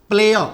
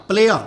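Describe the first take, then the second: No difference in how they are said.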